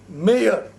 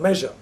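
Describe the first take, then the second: First: The middle 'zh' sound is left out. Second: The middle 'zh' sound is clearly said. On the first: "the Punjabis somehow cannot pronounce the S U word" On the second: "instead of measure"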